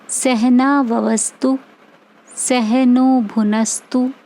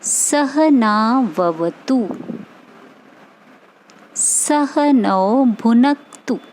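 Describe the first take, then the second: First: An extra s sound replaces the t and kt. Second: The words end in plain t and kt sounds. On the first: The speaker calls it wrong. "आप ऐसे बोलते हैं जो गलत है।" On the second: The speaker calls it right. "आपको क्या बोलना है"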